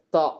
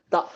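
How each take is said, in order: First: தா released lightly off the upper gum; light soft consonant. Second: தா with the tongue pressed on the upper gum; tongue against upper gum. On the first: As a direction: keep the tongue contact light on தா. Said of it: "லைட்டா வரும் இந்த sound". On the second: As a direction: stick the tongue to the gum ridge for தா. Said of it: "மேல உள்ள அந்த கம்மோட ஒட்டி". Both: Shown as a demonstration.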